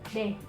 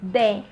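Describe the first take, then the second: First: A quick soft d tapped with the tongue tip. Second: A full d with the tongue flat behind the teeth. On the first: "really quickly and fluently, ... only the tip of my tongue" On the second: "if I want to pronounce the d correctly, half of my tongue is gonna be flat"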